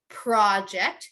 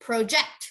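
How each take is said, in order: First: The stress is on the first syllable. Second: The stress is on the second syllable.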